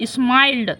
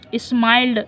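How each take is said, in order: Both takes have the same delivery.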